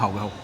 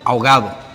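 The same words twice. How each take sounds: First: The d sound before the final vowel is dropped. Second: The d sound before the final vowel is pronounced. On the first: This is how Puerto Ricans say it. "Nosotros decimos" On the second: This is the general way to say it. "Tú puedes decir"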